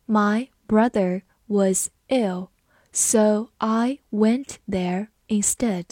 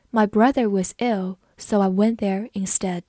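First: Slow, word by word with pauses; slow read-along. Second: Said in the usual way. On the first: Shown as a demonstration. Teacher reading the brother example for students, slowly. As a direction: space out each word for learners. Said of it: "好，我们慢读一遍".

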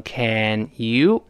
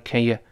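First: "can you" slowly, as two full words; separated full forms. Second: "can you" reduced to a quick "kən yə"; weakened vowels. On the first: Teacher reads apart for word drill, separated full forms. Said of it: "老师分开读". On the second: Teacher shows fast connected speech, weakened vowels. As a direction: pass lightly over "can you" with schwa vowels. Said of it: "can和you都发成元音弱化". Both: Shown as a demonstration.

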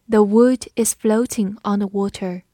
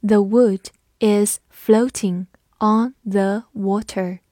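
First: Said in the usual way. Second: Slow, careful model reading; teacher reading slowly for the class. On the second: Shown as a demonstration. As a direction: read it slowly word by word. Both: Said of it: "我们慢读一遍".

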